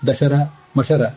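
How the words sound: The breaks split it as dashara, mashara. The meaning is distorted. The speaker calls it wrong. "ಸರಿಯಾಗಿ ಪದಚ್ಛೇದ ಮಾಡದೆ ಹೋದ್ರೆ"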